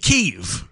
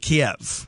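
First: The name is said the newer way. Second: The name is said the older English way. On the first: This is how the name has been said in recent years. "in the last several years, we've changed the pronunciation to" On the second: This is how the name was said for decades. "For decades, that we pronounced the name of the capital city of Ukraine, we pronounced it"

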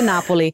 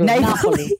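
First: It is said with an Italian accent. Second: It is said with an English accent. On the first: The speaker calls it right. "I love how you put your little accent on Mr. Napoli" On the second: The speaker calls it wrong. "if I say Napoli, it doesn't sound good"

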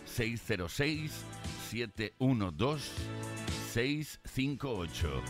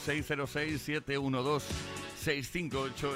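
First: The number is said at a slower pace. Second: The number is said at a faster pace.

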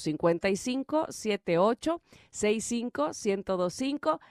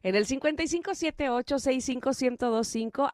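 First: The number is said slowly. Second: The number is said at normal speed.

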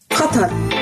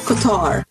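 First: The stress falls on the first syllable. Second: The stress falls on the second syllable. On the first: The speaker calls it right. "She says the emphasis on the first syllable, Cutter" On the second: The speaker calls it wrong. "not Qatar"

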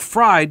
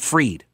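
First: The vowel is an 'eye' sound. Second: The vowel is a long 'ee' sound. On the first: He should be punished. "I'm going with Fried because I want him to be punished" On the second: He got away with it and was freed. "I'll start calling him Bankman Freed"

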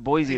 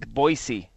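First: The middle consonant is a buzzing Z sound. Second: The middle consonant is a hissing S sound. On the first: The speaker calls it wrong. "It's not Boise. There's no Z in Boise" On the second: The speaker calls it right. "It's Boise"

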